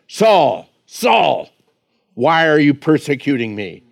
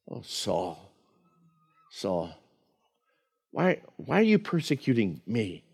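First: It sounds stern and condemning. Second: It sounds tender and compassionate.

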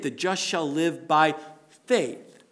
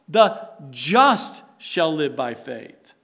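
First: The stress is on the word faith. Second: The stress is on the word just.

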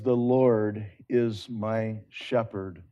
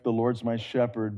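First: It is said slowly and deliberately. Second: It is said quickly and lightly.

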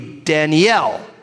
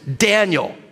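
First: The stress is on the last syllable. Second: The stress is on the first syllable. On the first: This is the Hebrew way of saying the name. "the emphasis is always on the back end or the last syllable" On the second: This is the English way of saying the name. "with the emphasis on the Dan"

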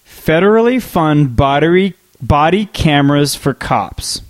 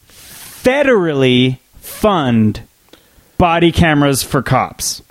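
First: The word federally gets no special emphasis. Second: The word federally is strongly emphasized. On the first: "Let me read it again" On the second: "what if I say it like this?"

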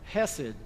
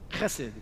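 First: The word starts with a plain, soft h. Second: The word starts with a rasping guttural sound.

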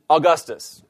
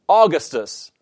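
First: The stress is on the second syllable. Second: The stress is on the first syllable. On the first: The speaker calls it right. "rather than Augustus" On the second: The speaker calls it wrong. "following the logic of this objection"

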